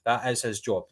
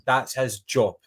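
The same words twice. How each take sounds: First: "is" stressed in full, softer overall. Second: Said in the usual way. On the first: Real, not acted. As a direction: drive the point home on "is", dropping the volume. Repeats point for emphasis.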